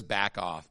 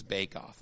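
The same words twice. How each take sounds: First: "back" with the short a of "cat"; misread as back off. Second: "bake" with the long a of "cake"; corrected to bake off. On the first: Pastor reading out the bulletin's misprint, "back" with short a. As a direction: say "back", short vowel, in place of "bake". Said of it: "it's bake off". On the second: Pastor correcting the bulletin's misprint, "bake" with long a. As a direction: say "bake", long vowel, low and soft. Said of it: "It says back off, but it's". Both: Shown as a demonstration.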